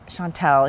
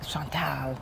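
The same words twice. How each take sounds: First: Said in the usual way. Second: Soft, low French pronunciation; French accent. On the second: Shown as a demonstration. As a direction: say the name softly with a French accent. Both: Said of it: "with the French accent".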